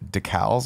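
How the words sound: It is said with a Canadian pronunciation. "how Canadians say decals"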